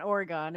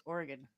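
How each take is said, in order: First: Oregon said as "Ora-gone"; wrong pronunciation demo. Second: Oregon said as "Or-uh-gun"; local pronunciation demo. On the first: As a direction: stretch the end of Oregon into a full "gone". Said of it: "And it's not Oregon". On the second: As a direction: reduce the end of Oregon to a short "gun". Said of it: "it's Oregon". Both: Shown as a demonstration.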